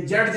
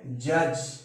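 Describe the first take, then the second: First: जज with a hard D before the final J; wrong d pronunciation. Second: जज as "juj", no D sound; silent-D pronunciation. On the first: Teacher shows what not to say, जज with audible D. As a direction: sound an extra ड in जज, like "jud-j". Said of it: "देखिए जज नहीं बोल रहा है". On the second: Teacher models the correct reading, जज with silent D. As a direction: leave the D out of जज, plain J at the end. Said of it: "उच्चारण हम ज पढ़ेंगे और डी का उच्चारण साइलेंट रहेगा". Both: Shown as a demonstration.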